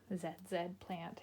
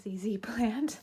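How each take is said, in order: First: The letter Z is said as 'zed'. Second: The letter Z is said as 'zee'. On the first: This is how the name would sound in Canada. The speaker calls it wrong. "in Canada doesn't sound right" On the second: This is the usual name of the plant. The speaker calls it right. "It is called a Z Z plant"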